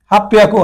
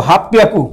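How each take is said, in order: Both takes have the same delivery.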